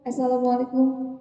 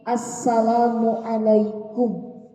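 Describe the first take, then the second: First: The greeting is pronounced sloppily and unclearly. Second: The greeting is pronounced clearly and carefully. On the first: The speaker calls it wrong. "Jangan uh" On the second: The speaker calls it right. "harus fasih"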